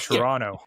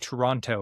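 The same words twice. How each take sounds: First: The second T is dropped. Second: The second T is clearly pronounced. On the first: This is how locals say the name. "We don't pronounce the second T" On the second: This is how outsiders say the name. "that's how the the performers said it"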